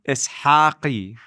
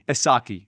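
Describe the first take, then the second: First: The surname is said the original Chaldean way. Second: The surname is said the everyday English way.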